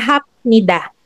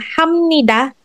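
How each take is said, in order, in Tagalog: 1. Ang katinig bago ang nida ay tunog p. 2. Ang katinig bago ang nida ay tunog m. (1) "hindi siya hapnida" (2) "yung hamnida"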